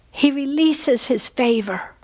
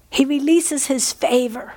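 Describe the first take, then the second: No difference in how they are said.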